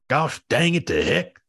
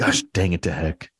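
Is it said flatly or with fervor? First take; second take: with fervor; flatly. First: It is said with strong, heartfelt fervor. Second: It is said plainly, without much feeling.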